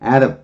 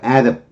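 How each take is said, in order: First: The first vowel is pronounced and stressed. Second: The first vowel is pronounced and stressed.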